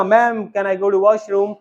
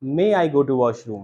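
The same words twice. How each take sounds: First: Put-on small child asking. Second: Correcting teacher. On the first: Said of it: "जैसे बच्चे ने बोला". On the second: Retold or imitated. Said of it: "ma'am ने कहा".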